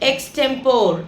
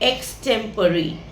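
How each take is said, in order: First: The word ends in a single 'pore' syllable. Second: The word ends in two syllables, 'puh-ree'. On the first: The speaker calls it wrong. "நம்மளில் பல பேர் இதை எக்ஸ்டெம்போர் அப்படின்னு சொல்லுவோம்" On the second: The speaker calls it right. "So அது எக்ஸ்டெம்போர் கிடையாது, எக்ஸ்டெம்பரி"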